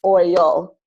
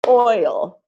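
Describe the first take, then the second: First: OIL as oy-UL, second syllable stressed; deliberately misstress oil on the UL; oil drawn out as oy-UL; wrong-way stress. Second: OIL as OY-ul, long strong OY; Oil with OY stressed, ul weak; correct first-syllable stress. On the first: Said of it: "So it's not oil". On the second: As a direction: lean on the first beat of Oil. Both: Shown as a demonstration.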